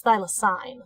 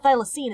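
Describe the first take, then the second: First: "thylacine" ending in -sine; corrected pronunciation. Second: "thylacine" ending in -seen; rejected pronunciation. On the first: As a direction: say "thylacine" as THY-la-sign. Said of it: "it's thylacine". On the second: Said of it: "so it's not thylacine". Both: Shown as a demonstration.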